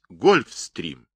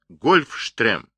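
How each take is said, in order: First: The middle is pronounced with an 'st' sound. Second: The middle is pronounced with a 'sht' sound. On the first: The speaker calls it right. "Это слово английское, его нужно произносить гольфстрим" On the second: The speaker calls it wrong. "не говорите, Марат, гольфштрем. Это неправильно"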